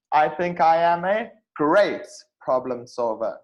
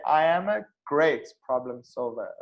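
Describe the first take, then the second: First: "great" said louder and leaned on; stress on great. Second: Said in the usual way. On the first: Shown as a demonstration. Teacher shows students stress on "great" in an interview answer, leaned on. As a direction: interview answer, punch the word "great" hard. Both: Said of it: "See how I emphasize on the word great".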